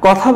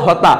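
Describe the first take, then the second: First: Said in the usual way. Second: "হতা" with h for the initial k; Chittagong pronunciation. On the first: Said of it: "কথা বললে". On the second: Shown as a demonstration. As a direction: swap k for h in "হতা". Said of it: "তারা বলে হতা".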